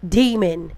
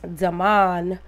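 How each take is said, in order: First: The name is said like demon. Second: The name is said like Damon. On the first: The man is called what he is, a demon. The speaker calls it right. "pronounce it like it needs to be pronounced" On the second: This is how others say the name. The speaker calls it wrong. "They talking about what's his name?"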